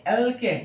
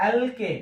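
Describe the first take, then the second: Both takes have the same delivery.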